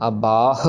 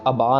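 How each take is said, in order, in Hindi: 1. शब्द साँस वाली h की आवाज़ पर खत्म होता है। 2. शब्द एक स्वर पर खत्म होता है, उसमें h नहीं है। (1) "अबाह और अगाह की आवाज आनी चाहिए" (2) "हम फिर से अबा ना कर दें"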